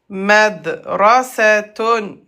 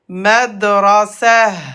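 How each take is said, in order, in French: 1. Le mot finit par un son 'tun'. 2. Le mot finit par un son 'h'. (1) "le mot c'est madrasatun" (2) "à l'arrêt, at se prononce comme ha avec soukoun"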